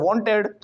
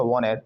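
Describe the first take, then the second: First: "wanted" with a clear T after N; usual hard T. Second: "wanted" as "wah-ned"; silent T. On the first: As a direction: say "wanted" the Indian way, "won-ted". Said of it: "हम बोलते हैं ना wanted". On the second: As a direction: drop the T after N in "wanted", American style. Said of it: "टी गायब कर दिया". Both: Shown as a demonstration.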